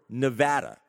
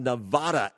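First: Nevada is pronounced the way residents say it. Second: Nevada is pronounced the way non-residents say it. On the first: "those from the state prefer Nevada" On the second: "as I say it, that is actually the pronunciation I have read that is used by those who are not from the state"

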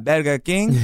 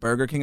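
First: It is said with a Spanish accent. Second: It is said with a plain English accent.

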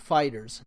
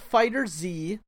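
First: It sounds like the plain word fighters. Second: It ends with a separate letter Z. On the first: The speaker calls it right. "like the word fighters" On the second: The speaker calls it wrong. "not Fighter Z"

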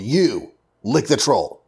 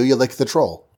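First: It is said as a forceful order. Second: It is said as a plain matter-of-fact statement. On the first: It tells the listener to do it. "And then there's the command form" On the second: It describes what one habitually does. "every day, this is what you do"

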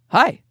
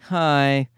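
First: It is said in a polite, friendly way. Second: It is said in a reluctant, grudging way.

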